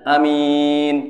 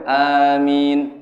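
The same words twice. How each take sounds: First: The first vowel is short; the m is long. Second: The first vowel and the m are both lengthened. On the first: The speaker calls it wrong. "hanya cepat, minnya panjang" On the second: The speaker calls it right. "hanya dua, minnya dua"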